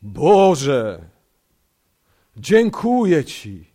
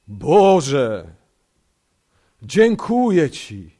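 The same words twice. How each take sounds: First: It is said in a solemn, pious praying tone. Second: The same.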